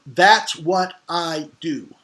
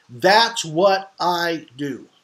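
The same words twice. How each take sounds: First: Slow, every word weighted on That's what I do; like a confident expert stating a fact; emphatic statement. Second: That's what I do drawn out slowly, each word stressed; confident, deliberate claim; emphatic statement. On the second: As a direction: hammer home That's what I do with calm certainty. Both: Shown as a demonstration. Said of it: "with a very emphatic statement of".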